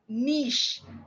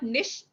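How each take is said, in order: First: The vowel in the word is held long. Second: The vowel in the word is short. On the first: The speaker calls it right. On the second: The speaker calls it wrong.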